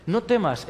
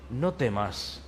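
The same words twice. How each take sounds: First: Said in the usual way. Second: Softly, low and hushed; calm a frightened person gently; soft reassurance. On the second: Acted. Angel hushing a frightened human, softly.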